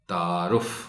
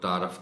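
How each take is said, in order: First: The vowel after the r is 'u'. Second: The vowel after the r is 'a'. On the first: The speaker calls it right. "सही तलफ़्फ़ुज़ है" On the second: The speaker calls it wrong. "रे पर जबर इस्तेमाल कर जाते हैं"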